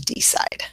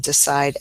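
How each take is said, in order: First: The first vowel is a full vowel. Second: The first vowel is a weak schwa. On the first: The speaker calls it wrong. "as opposed to decide" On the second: The speaker calls it right. "so it is decide"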